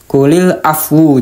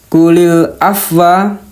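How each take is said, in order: First: The last word ends with a 'u' vowel. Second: The last word ends with an 'a' vowel.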